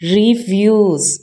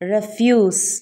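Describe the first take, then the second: First: The word begins with a long 'ree' sound. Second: The word begins with a short 'ref' sound. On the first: It is the verb meaning to decline. "ഇനി ഇത് വെർബാണെങ്കിൽ റീഫ്യൂസ്" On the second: It is the noun meaning rubbish. "ഇത് noun ആണെങ്കിൽ റെഫ്യൂസ്"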